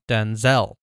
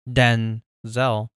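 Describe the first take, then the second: First: The stress is on the second syllable. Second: The stress is on the first syllable. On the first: This is how the actor's own name is said. "he stresses the Zell part" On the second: This is how the father's name is said. "his dad's name is pronounced with stress on the first syllable"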